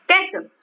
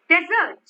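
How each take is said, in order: First: The stress is on the first syllable. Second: The stress is on the second syllable. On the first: "I am stressing on this" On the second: "the stress is on the second syllable"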